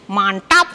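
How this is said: The T sound is pressed hard. It sounds like a regional Balinese accent. The speaker calls it wrong. "orang Bali nih, ya biasanya kan T-nya mantap sekali"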